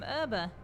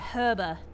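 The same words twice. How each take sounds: First: The word begins with a vowel, no H sound. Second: The word begins with a clear H sound.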